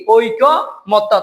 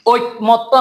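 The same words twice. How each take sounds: First: ঐকমত্য slowly as "oikko ... motto"; careful slow syllables in ঐকমত্য, both parts ending in o; corrected pronunciation. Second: ঐকমত্য run together as "oi-motto"; rejected pronunciation. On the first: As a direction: hold the ko in ঐকমত্য, then say motto separately. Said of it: "এটা হবে কি?". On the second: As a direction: say ঐকমত্য quickly, without a separate long ko. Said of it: "ঐকমত্য না". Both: Shown as a demonstration.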